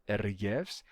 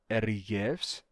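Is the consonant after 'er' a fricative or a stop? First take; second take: fricative; fricative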